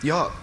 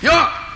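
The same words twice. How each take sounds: First: It is yelled at a moderate volume. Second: It is yelled at full volume.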